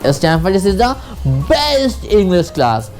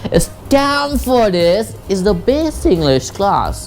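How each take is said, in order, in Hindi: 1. 'best' शब्द पर stress है। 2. 'Stamfordis' शब्द पर स्ट्रेस है। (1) "बेस्ट पे स्ट्रेस डालूं" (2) "मैं अगर स्ट्रेस स्टैमफोर्डिस पे दूँ"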